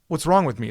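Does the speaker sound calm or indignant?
calm. It sounds like a calm, sincere question. The speaker genuinely asks what her fault is. The speaker calls it wrong. "it's not what's wrong with me"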